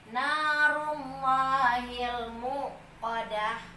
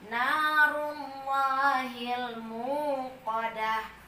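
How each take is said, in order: First: The vowel in 'mu' is short and clipped. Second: The vowel in 'mu' is held long. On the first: The speaker calls it wrong. "ada penahanan di situ, kurang tepat" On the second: The speaker calls it right. "Mu-nya panjang"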